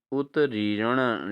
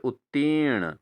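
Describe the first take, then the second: First: उत्तीर्ण slowly as "ut-ree-ran"; wrong pronunciation. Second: उत्तीर्ण said as "ut-teern"; correct pronunciation. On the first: Teacher reads the misspelling to students, उत्तीर्ण as "utreeran". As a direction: misplace the r in उत्तीर्ण, "utriran". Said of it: "but यह अशुद्ध है". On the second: Teacher gives students the answer, उत्तीर्ण as "utteern". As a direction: hold the long ee of उत्तीर्ण. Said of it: "क्या होना चाहिए?". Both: Shown as a demonstration.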